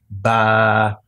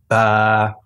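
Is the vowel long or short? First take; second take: long; long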